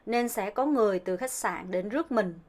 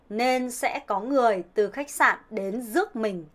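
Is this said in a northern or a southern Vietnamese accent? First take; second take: southern; northern. First: It is said in a southern Vietnamese accent. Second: It is said in a northern Vietnamese accent.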